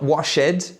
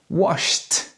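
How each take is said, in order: First: The ending is not a plain T sound. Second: The word ends with a plain T sound. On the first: The speaker calls it wrong. "So not washed" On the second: The speaker calls it right. "but washed"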